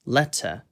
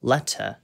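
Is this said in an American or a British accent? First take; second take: British; British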